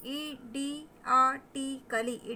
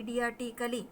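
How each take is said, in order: First: "idiotically" very slow: i-di-a-ti-cally; sounded out. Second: Said in the usual way. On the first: Shown as a demonstration. Teacher breaking down a long word for learners, syllable by syllable. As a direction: separate the syllables of "idiotically" with clear gaps.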